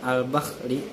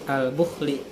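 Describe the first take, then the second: First: The vowel after b is an 'a' sound. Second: The vowel after b is a 'u' sound. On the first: "dapat dibaca fathah pada huruf ba-nya sehingga dibaca" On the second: "dapat pula dibaca dhammah pada ba-nya"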